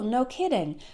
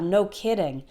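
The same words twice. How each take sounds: First: It sounds mildly surprised, in a higher tone. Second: It sounds sarcastic, in a lower tone. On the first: The news is surprising. "something that's a little bit surprising and you want to use no kidding to say really" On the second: The statement is obvious. "if you want to use it sarcastically, you use a little bit of a lower tone of voice"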